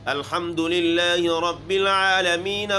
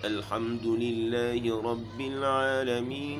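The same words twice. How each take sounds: First: It is recited at a high, raised pitch. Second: It is recited softly at a low pitch. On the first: The reciter will struggle to finish the whole section. The speaker calls it wrong. "इस ऊपर लेवल पे जब उसने ये अल्हम्दु पढ़ा है" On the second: The reciter can sustain the whole section. The speaker calls it right. "धीमी आवाज़ से, यानी जिसको हम करार कहते हैं, बिल्कुल निचले लेवल से"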